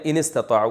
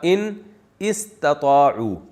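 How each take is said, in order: First: The two words are joined, alif left silent. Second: The two words are said separately, alif pronounced. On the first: "तो मिला के पढ़ा दिया, अलिफ साइलेंट हो गया" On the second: "असल में था"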